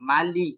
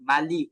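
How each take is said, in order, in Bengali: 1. শেষ স্বরধ্বনিটি 'i' এর মতো শোনায়। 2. শেষ স্বরধ্বনিটি 'i' এর মতো শোনায়।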